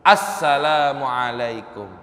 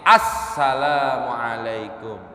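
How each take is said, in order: The two takes are said the same way.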